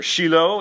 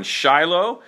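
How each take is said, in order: First: Shiloh said as SHEE-loh; Israeli pronunciation. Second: Said in the usual way. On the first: Shown as a demonstration. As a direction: say Shiloh with an "ee" in the first syllable. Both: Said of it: "as it's pronounced in, uh, in Israel".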